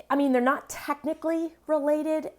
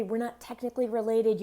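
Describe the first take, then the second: First: Related stretched and lifted high; stress on related. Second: Related said flatly falling; a light mocking quote of the excuse. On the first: Shown as a demonstration. Teacher mocking the excuse, related stretched high. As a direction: lean hard on related. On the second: Teacher quoting the excuse, related falling. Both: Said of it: "if you have to say".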